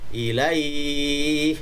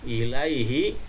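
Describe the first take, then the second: First: The word ends on a lengthened, held consonant. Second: The word ends with a short final vowel. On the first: The reading stops on this word. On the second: The reading continues without a stop.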